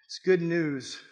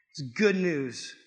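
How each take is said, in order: First: Said in the usual way. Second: Slow, weighty, each word landing; slow emphatic. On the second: Shown as a demonstration. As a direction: let it sink in slowly.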